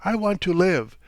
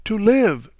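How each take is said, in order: First: An anguished, tearful cry; tearful outburst. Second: Repeated far louder and higher, breaking out; a mother crying out she wants to live; anguished cry. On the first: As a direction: plead for her own life, near tears. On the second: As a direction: throw the words out in despair. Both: A narrator's reading. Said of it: "she repeated".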